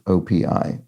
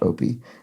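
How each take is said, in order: First: Each letter is said separately. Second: It is said as a single word. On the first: The speaker calls it right. "It is indeed pronounced as an initialism" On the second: The speaker calls it wrong.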